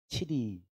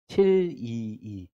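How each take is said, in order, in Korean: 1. 빠르게 말해요. 음절들을 붙여서 줄여 말해요. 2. 보통 속도로, 음절을 다 살려서 말해요.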